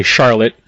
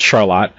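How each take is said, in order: First: Said in the usual way. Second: Charlotte said shar-LOT; local Charlotte pronunciation. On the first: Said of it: "most people would say Charlotte". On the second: Shown as a demonstration. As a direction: stress the end of Charlotte, rhyming it with "lot". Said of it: "out here it's called Charlotte".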